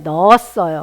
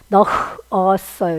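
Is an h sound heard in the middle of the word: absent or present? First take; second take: absent; present. First: The word is said with no h sound. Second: The word is said with an audible h sound.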